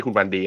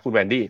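First: คุณวันดี read as the Thai word วันดี, with a short Thai วัน; mock the misreading คุณวันดี, saying วัน like the Thai word; contrasting wrong reading คุณวันดี as Thai วันดี; wrong pronunciation. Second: คุณแวนดี้ said as "Wandy", the first syllable แวน with the open English-style vowel; careful, correct คุณแวนดี้ with แวน; correct pronunciation. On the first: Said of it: "ไม่ใช่คุณวันดีนะ". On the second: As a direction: say คุณแวนดี้ like the English name Wendy, แวน not วัน. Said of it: "ออกเสียงถูกแล้วนะ". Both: Shown as a demonstration.

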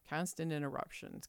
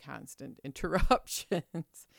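First: Said in the usual way. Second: "interruptions" stretched out and louder; exasperated emphasis. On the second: Real, not acted. Vlogger griping about interruptions at work, exasperated emphasis. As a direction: lean slowly and loudly on "interruptions". Repeats complaint with mounting emphasis.

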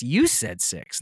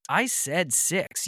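First: "You" hit, falling tune; accusing stress on "You". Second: "I" punched and drawn out, slow; slow, insistent stress on "I". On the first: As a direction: push the weight onto "You" in "You said six". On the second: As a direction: lean hard on "I" in "I said six". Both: Retold or imitated.

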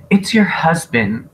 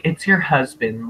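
First: Higher, put-upon imitation; mock impatient. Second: Offhand imitation in an everyday voice; nonchalant. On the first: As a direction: blurt it at someone who won't stop crying. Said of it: "she's all crying and Annie was like". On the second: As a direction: toss it off as if it hardly matters. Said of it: "really nonchalantly and really late".

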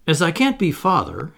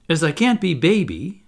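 First: Mildly heavy-hearted, higher and louder; a touch of weighty disappointment; said heavily. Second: A touch more downcast, still high and loud; mildly mounting disappointment; getting heavier. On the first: Humblest Toodles after being refused as father, said heavily. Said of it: "he said heavily". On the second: Toodles refused as baby by Michael, getting heavier. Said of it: "getting heavier and heavier and heavier". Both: A narrator's reading.

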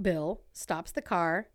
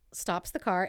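First: "Bill stops the car" slowed, Bill set off in quotes; air-quote emphasis. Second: Said in the usual way. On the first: Real, not acted. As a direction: stress "Bill" as a doubtful name, slowly. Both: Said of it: "air quote".

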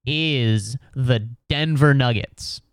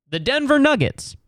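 First: Said in the usual way. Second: "The Denver Nuggets" pitched high in disbelief; mock disbelief, high on "Nuggets"; incredulous repeat. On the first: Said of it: "NBA writers were like". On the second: Real, not acted. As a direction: echo "The Denver Nuggets" as if it's absurd. Repeats team name in disbelief.

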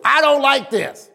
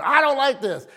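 First: Mock child's complaint, pitched high; complaining child. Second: Higher-pitched mimicry of a scolding; wife throwing the child's complaint back, lightly acted. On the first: Child to parents at the dinner table, imitated complaint. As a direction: imitate a kid balking at dinner. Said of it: "first thing they used to say was". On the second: Wife to child at dinner, imitated scolding. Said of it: "my wife gets all over it".

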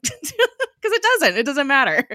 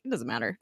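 First: High, loud and emphatic through real laughter; laughing agreement. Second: Low, soft brush-off; dismissive. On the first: Real, not acted. Host agrees the show's specifics are irrelevant, laughing emphatically. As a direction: crack up while insisting on it. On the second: Retold or imitated. Imitating Gemma dismissing the question, offhand and low. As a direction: wave it away, imitating someone unbothered. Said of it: "just, like, completely dismisses it".

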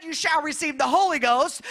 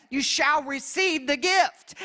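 First: Said in the usual way. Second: Slow, with gift lifted at the end; quoting scripture with gift drawn out; stress on gift. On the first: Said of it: "He could have said". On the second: Shown as a demonstration. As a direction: dwell on the word gift, slowly. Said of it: "he put that word in there, gift".

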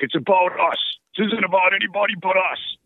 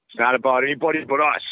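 First: Put-on high, pumped-up Boston accent coach; rally the team in a thick Boston accent. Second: Put-on slightly raised Boston accent coach; a hint of a Boston hockey coach. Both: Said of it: "I'm trying to do a Boston accent and sound like him".

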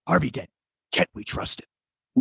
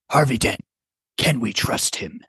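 First: Hushed, softer vigilante whisper; Batman. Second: Half-hearted superhero impression; lightly voiced vigilante, holding back; Batman. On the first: Acted. Player showing friends how Batman does it, Batman whisper. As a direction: whisper it as the dark superhero. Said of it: "That's how he does it". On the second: Player taking a turn in a voice game, understated Batman. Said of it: "having us do our Batman voices".

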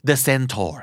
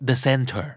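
First: Centaur said as SEN-tor, with an "or" ending; SEN-tor, rhyming with mentor said "men-tor". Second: Center, with a reduced "ter" ending; SEN-ter, weak "er" second syllable; Centaur ending in TER. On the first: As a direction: say Centaur with a clear "tor" second syllable. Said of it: "มีออกเสียงทั้งสองอย่าง". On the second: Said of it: "บางทีอาจจะได้ยินพูดว่า". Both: Shown as a demonstration.

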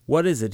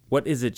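First: Gruff, higher growled question; mild growl at his brother-in-law. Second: A slightly raised, startled question; a hint of a shout, voice starting to break; mild shout. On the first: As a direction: snap it at the two visitors. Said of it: "he growled". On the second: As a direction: call it out again, less sure. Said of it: "shouted Big Liam again". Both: A narrator's reading.

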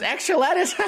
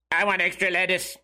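First: High-pitched mocking imitation of a woman; mock sandwich lady. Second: Put-on weird kid's robotic monotone. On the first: Sandwich lady echoing lettuce boy, high mock voice. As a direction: squeal it back as a delighted question. Sandwich lady's giggly reply to kid. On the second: Weird kid asking the sandwich lady for lettuce, robotic voice. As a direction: imitate a robotic teenage boy ordering. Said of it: "it's a weird robotic voice like this".

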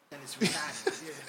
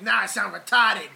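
First: "retarded" drawn out in a Boston accent; slow Boston "retahded", R dropped, laughing. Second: "retarded" loud, with a hard R; mock-quote it, punching the R in "retarded". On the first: Shown as a demonstration. Co-host showing how Boston says it, Boston accent. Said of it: "unless you're from Boston". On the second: Co-host mocking a friend's worry about being canceled, hard R in "retarded". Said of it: "hard R".

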